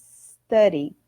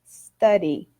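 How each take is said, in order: No difference in how they are said.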